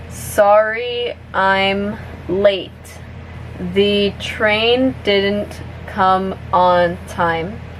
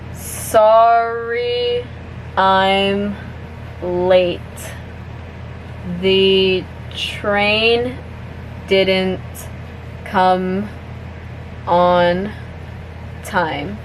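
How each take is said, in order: First: The sentence is spoken at a medium pace. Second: The sentence is spoken slowly. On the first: "a little bit faster now" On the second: "I'm gonna say it slowly first"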